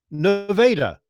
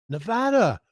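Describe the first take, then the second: First: Nevada with the middle a as in day, nuh-VAY-da; slow local Nevada, nuh-VAY-da; Ohio's Nevada, nuh-VAY-da; Ohio town pronunciation. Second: Nevada with the middle a as in cat, nuh-VA-da; Nevada said as the state is said, nuh-VA-da; the western state's Nevada; state name Nevada. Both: Shown as a demonstration. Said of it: "We have a town here named Nevada".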